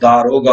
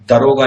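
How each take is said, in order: First: The first vowel is long. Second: The first vowel is short. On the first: The speaker calls it right. "पर दा, ... वो दारोगा होता है" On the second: The speaker calls it wrong. "दरोगा नहीं होता"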